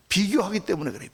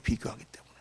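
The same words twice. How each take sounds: First: Said in the usual way. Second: 비교하기 때문에 repeated much softer and lower; quiet echo. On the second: Shown as a demonstration.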